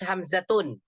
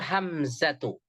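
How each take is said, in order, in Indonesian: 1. Namanya berakhir dengan bunyi n tambahan. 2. Namanya berakhir dengan vokal saja. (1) "Nggak boleh dibaca Hamzatun. Itu salah" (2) "yang benar itu Hamzatu"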